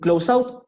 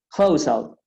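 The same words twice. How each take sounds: First: The stress is on the second part. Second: The stress is on the first part. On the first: The speaker calls it wrong. "la segunda no es un close out" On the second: The speaker calls it right. "Siempre la primera"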